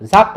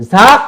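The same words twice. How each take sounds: First: Said in the usual way. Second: জাক loud and high, the final k hit hard with a heavy bounce; overdone hard qalqalah. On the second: Shown as a demonstration. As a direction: punch জাক with too strong an echo on k. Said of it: "এরকম হইলে এটা শক্ত হয়ে যায়". (জাক-এর শেষে বেশি শক্ত ধাক্কা)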